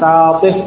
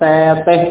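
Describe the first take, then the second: First: The long vowel is an open 'a' sound. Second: The long vowel is tilted toward an 'e' sound. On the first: The speaker calls it right. "Harus fathah" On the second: The speaker calls it wrong. "Tidak boleh satih atau hadir"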